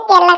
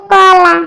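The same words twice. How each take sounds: First: কেলা with an "e" vowel, as in Barisal; Barisal dialect form. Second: কলা with an open "o" vowel, "kola"; standard Bangla form. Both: Shown as a demonstration. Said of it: "কেলার শুদ্ধ ভাষা কলা".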